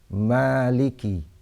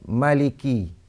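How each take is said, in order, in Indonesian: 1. Vokal pertama setelah m dipanjangkan. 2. Vokal pertama setelah m pendek. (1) "mereka membaca dengan mad" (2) "membaca dengan hazaf alif, iaitu membuang alif selepas mim"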